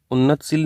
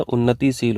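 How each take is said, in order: First: उन्नतशील with no i vowel after नत; teacher shows the wrong spelling उन्नतशील, said un-nat-sheel; wrong form shown. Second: उन्नतिशील with a clear i after नत; teacher gives the right form उन्नतिशील, said un-na-ti-sheel; correct form shown. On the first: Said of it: "उन्नतशील नहीं होता है". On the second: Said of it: "उन्नतिशील होता है". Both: Shown as a demonstration.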